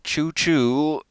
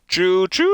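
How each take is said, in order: First: It is said flatly, with little energy. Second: It is said loudly, with great energy.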